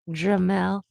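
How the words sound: It is said in a French accent. "the fr- François Francais version"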